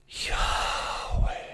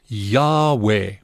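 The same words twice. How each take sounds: First: It is said on a soft, breathy exhale. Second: It is said in a full, plain voice.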